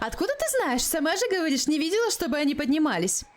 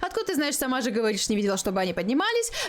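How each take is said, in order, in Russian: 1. Читается наигранным голосом персонажа. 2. Читается быстро, её обычным голосом. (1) "а потом ее голосом стараться читать тот, который я выбрала" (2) "я буду читать обычным голосом все варианты быстренько"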